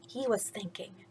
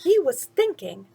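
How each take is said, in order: First: Much softer whispered words. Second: Said in the usual way. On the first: Shown as a demonstration. Narrator to listeners, whispered. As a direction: say it under your breath.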